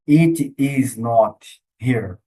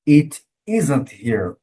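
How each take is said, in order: First: Every word is said in full, uncontracted. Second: Is and not are contracted into one syllable. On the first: The speaker calls it wrong. "Você não vai falar it is not here" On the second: The speaker calls it right. "Você vai ouvir o falante nativo falando it isn't here"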